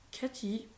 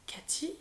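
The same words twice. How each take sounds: First: Whispered. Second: Much softer, rising Cathy?, barely voiced; whispered. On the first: Grandmother lost in memory, whispering the name. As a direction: let the name Cathy? sink, faint. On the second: Grandmother startled by her granddaughter's face, whisper. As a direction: breathe the name Cathy? as a question. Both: A narrator's reading. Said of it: "chuchote-t-elle".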